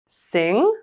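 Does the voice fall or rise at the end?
rise. The pitch rises at the end. "with rising and falling intonations"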